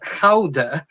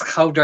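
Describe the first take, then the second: First: Gouda is said with its Dutch pronunciation. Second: Gouda is said like English 'good a'. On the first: This is the cheese's proper name. "originates from the Netherlands, and it is pronounced as Gouda" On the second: It makes a pun on 'good as dead'. "it wouldn't be the same to say as Gouda as dead"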